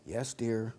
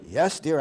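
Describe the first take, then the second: First: Meek yes dear. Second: Said in the usual way. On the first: Pretend. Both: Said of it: "expert at saying".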